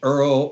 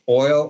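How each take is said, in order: First: The word is said like 'earl', Brooklyn style. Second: The word is said with a standard 'oy' vowel. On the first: "I would say Earl" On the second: "when I would say, like, oil"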